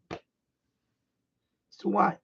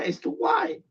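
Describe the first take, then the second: First: "It's too wide." stretched very slow and soft; drawn-out complaint. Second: Jumps up high on "It's too wide."; exasperated. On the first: Vlogger repeating the radio gripe, slow and deflated. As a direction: drag it out slowly, sighing it to yourself. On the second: Vlogger griping to viewers about the radio, high and fed up. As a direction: toss it off high and quick, fed up. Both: Real, not acted.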